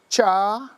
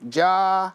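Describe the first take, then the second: First: The syllable begins with a ch sound. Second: The syllable begins with a j sound. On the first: This is the eastern dialect form. "In North Carolina" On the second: This is the western dialect form. "In Oklahoma, this is pronounced as a J"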